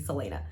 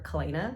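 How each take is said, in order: First: The name begins with a soft S sound. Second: The name begins with a hard K sound. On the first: The speaker calls it right. "I think it's actually Selena" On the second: The speaker calls it wrong. "I always called her Kalena"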